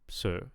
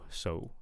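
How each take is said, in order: First: The vowel stays as one steady sound. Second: The vowel glides between two vowel sounds. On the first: The speaker calls it wrong. "I'm hearing a monophthong, so I'm hearing one vowel sound" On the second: The speaker calls it right. "we want a diphthong, so two vowel sounds"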